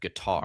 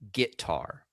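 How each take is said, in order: First: The word is said in a plain accent. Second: The word is said in a Texas accent. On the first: "instead of guitar" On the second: "my dad has a cool Texas accent. He says things like guitar"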